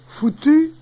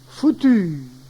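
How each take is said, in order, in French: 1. La voyelle finale est brève. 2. La voyelle finale est allongée.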